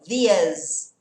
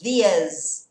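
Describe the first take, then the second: First: The two words run together with a changed vowel. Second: The two words run together with a changed vowel.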